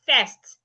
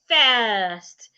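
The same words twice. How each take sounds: First: The vowel is said as a shorter sound. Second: The vowel is said as a longer sound. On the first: The speaker calls it wrong. "A lot of people pronounce it as first" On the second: The speaker calls it right. "Or the word first"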